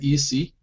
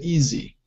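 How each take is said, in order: First: The middle consonant is a hissing s sound. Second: The middle consonant is a buzzing z sound. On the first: The speaker calls it wrong. "We don't say easy" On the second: The speaker calls it right. "we say easy"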